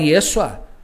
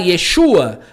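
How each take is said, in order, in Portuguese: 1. A consoante do meio tem som de s simples. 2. A consoante do meio tem som de sh. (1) "só o som do, do, do S, ele fala Yeshua" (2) "não consegue falar Yeshua, porque não tem o som do S H"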